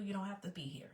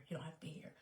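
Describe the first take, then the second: First: Said in the usual way. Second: Much softer, voiceless whisper; whispered repeat. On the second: Real, not acted. Telling viewers they can leave, whispered.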